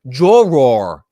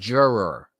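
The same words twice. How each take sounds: First: The word is pronounced in an unusual, affected way. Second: The word is pronounced in the ordinary way.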